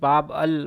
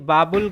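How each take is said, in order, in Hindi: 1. यह दो हिस्सों में बोला जाता है, 'bab al'। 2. यह एक शब्द के रूप में बोला जाता है, 'babul'। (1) "इस तरह से लिखा जाता है उसको उर्दू में" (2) "बाबुल गलत है"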